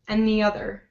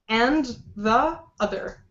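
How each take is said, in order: First: The words run together smoothly. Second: Each word is said separately. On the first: The speaker calls it right. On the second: The speaker calls it wrong.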